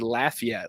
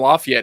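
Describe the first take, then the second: First: The first syllable sounds like 'laugh'. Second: The first syllable does not sound like 'laugh'. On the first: This is how the town's own residents say it. "like Laffy Taffy" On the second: This is how locals outside the town say it. "we call them Lafayette"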